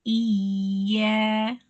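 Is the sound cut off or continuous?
continuous. The sound flows on without a break. The speaker calls it right. "tidak terputus"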